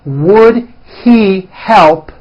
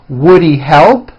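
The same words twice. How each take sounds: First: The words are said separately and fully. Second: The words are blended into one reduced form.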